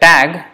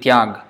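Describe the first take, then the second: First: The word starts with a plain t sound. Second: The word starts with a ty sound. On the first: This is the usual Bengali form. "mostly in Bengali it is pronounced as tag" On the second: This is the pure, Hindi-like form. "in the pure form it is tyag, like in Hindi tyag"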